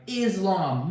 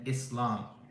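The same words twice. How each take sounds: First: The middle consonant is a buzzing Z sound. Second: The middle consonant is a hissing S sound. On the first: The speaker calls it wrong. "I was just trolling you to be like" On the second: The speaker calls it right. "There's an S. It's not a Z"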